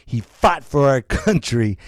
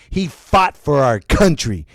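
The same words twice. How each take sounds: The two takes are said the same way.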